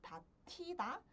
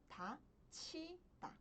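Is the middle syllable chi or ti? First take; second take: ti; chi. First: The middle syllable is pronounced ti. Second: The middle syllable is pronounced chi. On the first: The speaker calls it wrong. "Ao invés de pronunciar como" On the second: The speaker calls it right. "pronuncio como"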